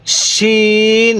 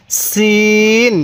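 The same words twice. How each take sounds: First: শিন with a thick sh, vowel held long; slow contrast model of thick-sounded শিন; thicker শিন. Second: সিন with a thin s, vowel held long; slow contrast model of thin-sounded সিন. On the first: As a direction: sustain শিন evenly with a full sh, not s. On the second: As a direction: sustain সিন evenly with a fine s, not sh. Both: Shown as a demonstration. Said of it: "উচ্চারণটা অনেকটাই difference".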